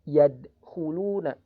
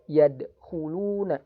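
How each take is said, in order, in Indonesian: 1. Bunyi d dipotong tiba-tiba. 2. Bunyi d dipotong tiba-tiba.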